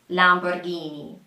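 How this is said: It is said with an Italian accent. "in Italian, it is pronounced something like Lamborghini"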